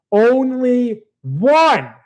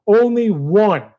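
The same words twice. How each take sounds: First: Only one stretched very slow, a bit higher; drawn-out emphasis. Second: Said in the usual way. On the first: Real, not acted. Ranting about the anime hero, slow stressed only one. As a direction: drag out only one in disbelief.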